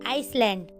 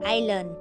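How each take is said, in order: First: An s sound is pronounced in the middle. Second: No s sound is pronounced in the middle. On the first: The speaker calls it wrong. "तो इसे हमें आइसलैंड नहीं पढ़ना" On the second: The speaker calls it right. "तो इसे हमें आइलैंड पढ़ना है"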